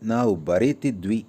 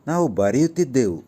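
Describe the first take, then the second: First: The verb ends in the shortened 'dvi' ending. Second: The verb ends in the full 'ddevu' ending.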